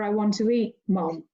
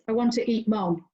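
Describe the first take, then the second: First: There is a short pause before mom. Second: It runs straight through with no pause before mom. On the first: The speaker tells their mother they want to eat. "or I want to eat mom" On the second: The speaker wants to eat their mother. "I'm either going to eat my mother"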